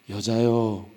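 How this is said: It is said in a soft, polite tone. The speaker is addressing his mother respectfully. The speaker calls it right. "공손하게 어머니를 부른 거예요"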